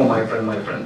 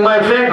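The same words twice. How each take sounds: First: Mock sweet pleading. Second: Said in the usual way. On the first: Shown as a demonstration. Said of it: "There's no "my friend, my friend" business". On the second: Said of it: "and these are my words".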